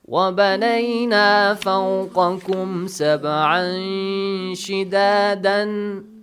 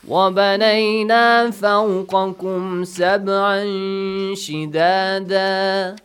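First: The last word ends with an n sound. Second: The last word ends with a long a vowel. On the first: The reading continues without a stop. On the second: The reading stops at the end of the verse.

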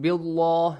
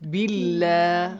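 First: The 'lah' is pronounced heavy and full. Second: The 'lah' is pronounced light and thin. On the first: The speaker calls it wrong. "Not billah, no" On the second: The speaker calls it right. "if there is kasra before the word Allah, lightly"

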